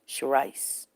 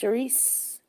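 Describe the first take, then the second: First: The last syllable rhymes with rice. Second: The last syllable does not rhyme with rice. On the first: "Like a ice or the rice?" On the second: "Like a S"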